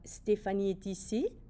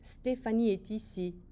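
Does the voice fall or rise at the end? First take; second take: rises; falls. First: The voice rises at the end. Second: The voice falls at the end.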